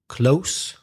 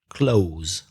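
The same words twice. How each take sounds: First: It ends with a hissing unvoiced S sound. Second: It ends with a buzzing voiced Z sound. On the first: "the first word has the unvoiced sound, so the S sound" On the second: "The second word has voiced, the voiced Z sound"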